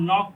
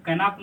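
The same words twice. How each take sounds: First: "नॉक" as one syllable, no K; silent K. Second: "कैनप", a vowel slipped between K and N; wrong pronunciation. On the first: Teacher giving the reading of knock, नॉक with silent K. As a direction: say नॉक starting straight on N. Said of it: "इसको हम नॉक पढ़ेंगे". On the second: Teacher showing what not to read, कैनप with audible K. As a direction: say कैनप with K sounded before N. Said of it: "इसको कैनप नहीं पढ़ेंगे". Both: Shown as a demonstration.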